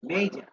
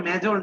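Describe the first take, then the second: First: মেজর said as English "may-jer"; মেজর corrected to "major", vowel as in day; correct pronunciation. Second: মেজর said the Bangla way, short e; মেজর as the local "mejor", clipped; মেজর the usual Bengali way, flat short vowel; wrong pronunciation. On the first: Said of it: "এই উচ্চারণটা মেজর না, মেজর". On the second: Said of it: "এই উচ্চারণটা মেজর না". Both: Shown as a demonstration.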